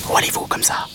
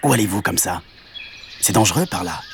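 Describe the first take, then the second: First: Whispered mantis question; all breath, no voice; tiny insect. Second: Small, understated hedgehog character; voiced question at near-usual pitch; lightly voiced hedgehog. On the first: Acted. Mantis questions the cow, whispered. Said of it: "demanda l'insecte". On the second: Hedgehog warns the cow, lightly voiced. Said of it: "C'était un petit hérisson".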